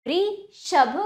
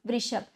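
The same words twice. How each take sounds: First: वृषभ split as वृ... षभ; broken into syllables. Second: Said in the usual way. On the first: Shown as a demonstration. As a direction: pause after वृ in वृषभ. (वृषभ को तोड़कर: वृ... षभ) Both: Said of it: "तोड़कर पहले".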